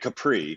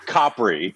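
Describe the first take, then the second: First: The name is said in a plain, ordinary way. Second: The name is said in an affected, showy way. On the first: "the nice" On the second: "the douchey way"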